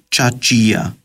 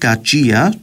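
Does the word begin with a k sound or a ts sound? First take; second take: ts; k. First: The word begins with a ts sound. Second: The word begins with a k sound. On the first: The speaker calls it wrong. "και όχι τσατσία" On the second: The speaker calls it right. "λαλούμε κατσία"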